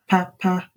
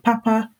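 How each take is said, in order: First: Both syllables are said on a low tone. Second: Both syllables are said on a high tone. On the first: It means a fan. "so two low tones" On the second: It means good. "which has two high tones"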